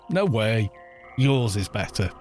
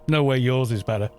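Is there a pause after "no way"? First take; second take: yes; no. First: There is a pause after "no way". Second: It runs on with no pause after "no way".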